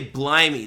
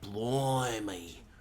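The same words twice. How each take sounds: First: The first vowel sounds plain, without an O quality. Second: The first vowel sounds rounded, like an O. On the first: The speaker calls it wrong. "they don't say blimey" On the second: The speaker calls it right. "They say blimey. Like with the O"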